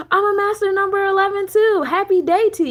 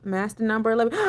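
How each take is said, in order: First: Gasp, then much higher and louder; delighted to find a match; excited gasp. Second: Said in the usual way. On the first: Real, not acted. To the viewer with the same number, a thrilled gasp. Finds she shares the number.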